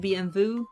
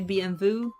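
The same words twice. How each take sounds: First: The letters are named with Italian letter names. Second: The same.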